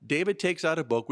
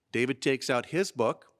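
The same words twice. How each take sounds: First: Said in the usual way. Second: "his" stands out as the key word; stress on HIS. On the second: Real, not acted. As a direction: lean on "his" in contrast. Contrast with line 63.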